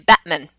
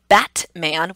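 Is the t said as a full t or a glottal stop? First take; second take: glottal stop; full t. First: The t is replaced by a throat stop. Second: The t is said as a full t. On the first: The speaker calls it right. "we say" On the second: The speaker calls it wrong. "We never say"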